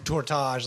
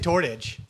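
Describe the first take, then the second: First: It is said with a fancy French-sounding accent. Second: It is said in a plain English way. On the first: A game character says it this way. "like he's some exotic" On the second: This is how the speaker normally says it. "I say Tortage"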